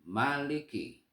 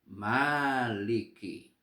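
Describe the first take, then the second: First: The first vowel is kept short. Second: The first vowel is held long. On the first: It means king. "memendekkan huruf mim sehingga berbunyi maliki" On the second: It means owner. "memanjangkan huruf mim sehingga dibaca maliki"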